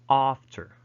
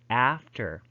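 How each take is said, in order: First: The vowel is a long back ah sound. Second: The vowel is a front flat a sound. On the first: "But in standard Southern British English, they would pronounce this as" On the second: "A in American, Northern British... So they would pronounce that as fast, after"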